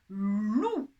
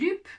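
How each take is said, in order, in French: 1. La voyelle est ou sans p final. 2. La voyelle est u et un p final se prononce. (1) "Je dis bien loup" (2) "ni lup"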